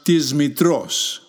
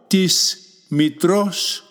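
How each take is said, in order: First: The first word ends with a z sound. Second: The first word ends with an s sound.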